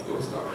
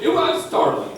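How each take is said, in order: First: Dropped to a hush. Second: High pitched. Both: Shown as a demonstration.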